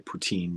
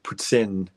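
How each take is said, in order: First: It is said with an American English pronunciation. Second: It is said with a Canadian English pronunciation. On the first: "I know I say poutine" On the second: "but it's like poutine"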